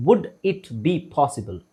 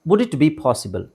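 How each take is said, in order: First: Word by word, slowly; slow model phrase. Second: Said in the usual way. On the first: Shown as a demonstration. Teacher models a polite question, slowly word by word. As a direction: space out "Would it be possible" for repeating. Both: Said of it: "ನನ್ನ ಜೊತೆಗೆ ಹೇಳಕ್ try ಮಾಡಿ".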